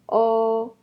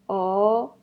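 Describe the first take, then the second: First: The pitch stays high and level. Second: The pitch rises from middle to high.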